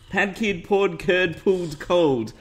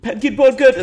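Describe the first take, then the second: First: It is said at a moderate, slower pace. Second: It is said very fast.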